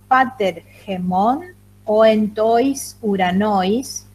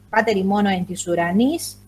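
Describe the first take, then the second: First: Each vowel is read separately, 'oi' as a diphthong. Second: Vowel pairs are read as 'i', as today. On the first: "si yo lo leo en la pronunciación erasmiana" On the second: "leo griego clásico como leería un griego de hoy"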